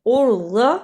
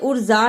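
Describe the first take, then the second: First: The middle consonant is a heavy emphatic sound. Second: The middle consonant is a plain 'j' sound. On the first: The speaker calls it right. "ज़्वाद की जगह पे जा की आवाज नहीं आनी चाहिए" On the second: The speaker calls it wrong. "इसे उर्जा नहीं पढ़ना"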